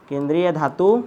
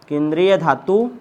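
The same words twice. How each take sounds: Both takes have the same delivery.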